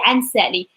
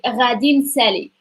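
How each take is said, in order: First: The first word is cut to one short syllable. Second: The first word is said in full. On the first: "In the north they say" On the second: "the full form of like future is like Radin Sally"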